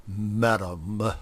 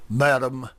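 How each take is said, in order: First: Madam forced out through clenched teeth; between his teeth. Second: Said in the usual way. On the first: Acted. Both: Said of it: "said Grover between his teeth".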